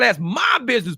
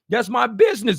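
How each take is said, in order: First: The word my carries the emphasis. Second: The word business carries the emphasis. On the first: It is none of your concern. "Putting my in big ass letters" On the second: It is my company. "You put business in that"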